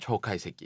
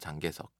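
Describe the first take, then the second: First: The name is read with Japanese sounds. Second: The name is read with Korean sounds. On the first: "일본어로는 초카이세키" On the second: "한국에서는 장개석"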